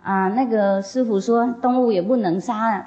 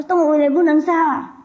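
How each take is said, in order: First: Said in the usual way. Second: 动物也不能杀 repeated much higher and louder in disbelief; shocked echo. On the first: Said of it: "他说动物也不能杀啊". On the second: Retold or imitated. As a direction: echo the rule back in high-pitched shock. (惊讶地尖声重复“动物也不能杀啊”)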